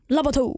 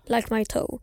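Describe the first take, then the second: First: The words are slurred together in a dialect. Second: The words are said clearly and distinctly. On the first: "Och så har han en sån här dialekt, så det blir" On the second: "Han säger like my toe"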